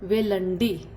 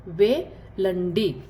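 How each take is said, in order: First: Said in the usual way. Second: वेलंडी stretched out very slowly; very slow repeat. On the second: Shown as a demonstration. Teacher repeats Telugu for go very slowly. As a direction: draw वेलंडी out syllable by syllable. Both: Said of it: "जाने को कैसे बोलते हैं".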